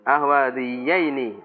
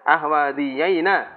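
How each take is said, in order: First: The final syllable ends with an 'ee' vowel. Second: The final syllable ends with an 'ah' vowel. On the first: This is the original standard form. "Asalnya kan gitu" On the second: This is a dialectal variant form. "dengan fathah ini"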